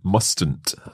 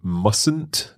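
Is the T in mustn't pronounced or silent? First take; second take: pronounced; silent. First: The T sound is clearly pronounced. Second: The T sound is left out. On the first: The speaker calls it wrong. "not mustn't" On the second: The speaker calls it right. "You say mustn't"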